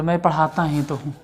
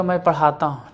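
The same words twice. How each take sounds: First: पढ़ाता ही तो हूँ, ही तो pressed hard; stress on ही तो. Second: Said in the usual way. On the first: Shown as a demonstration. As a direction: lean on ही तो to insist. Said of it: "और ये जोर दे के बोल रहे". ("ही तो" पर ज़ोर देकर)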